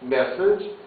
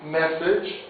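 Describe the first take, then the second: The two takes are said the same way.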